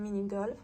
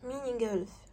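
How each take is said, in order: First: It is said with a French accent. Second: It is said without a French accent.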